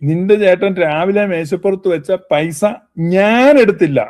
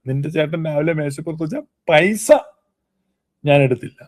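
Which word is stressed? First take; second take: ഞാൻ; പൈസ. First: The stress falls on the word ഞാൻ. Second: The stress falls on the word പൈസ. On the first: Someone else may have taken it. "അപ്പൊ ഊന്നൽ ഞാനും കൊണ്ട് കൊടുത്തു കഴിഞ്ഞാൽ" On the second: Other things may have been taken instead. "പൈസ എടുത്തില്ല"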